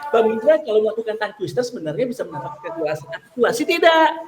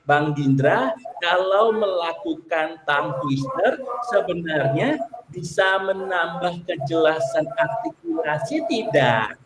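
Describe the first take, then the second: First: The sentence is read very fast. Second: The sentence is read slowly. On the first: "Tambah cepat lagi" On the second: "Itu kan dari lambat tuh"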